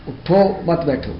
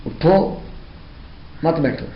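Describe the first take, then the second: First: High اٹھو running straight into مت بیٹھو; no pause after اٹھو. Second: High rising اٹھو, clear stop, falling مت بیٹھو; pause after اٹھو. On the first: Teacher shows what happens without stopping, no pause after اٹھو. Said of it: "اگر ٹھہرے نہیں تو اس طرح سے ہوگا". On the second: Teacher shows the compulsory stop, pausing after اٹھو. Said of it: "اٹھو پر ٹھہرنا لازم ہے". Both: Shown as a demonstration.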